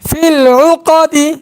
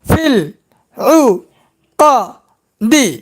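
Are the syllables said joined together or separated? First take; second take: joined; separated. First: The syllables flow together without breaks. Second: Each syllable is said separately with breaks. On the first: "এবার একসঙ্গে উচ্চারণ করব" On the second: "এখন ভাঙ্গা ভাঙ্গা উচ্চারণ"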